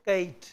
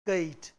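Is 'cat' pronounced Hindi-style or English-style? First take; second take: Hindi-style; Hindi-style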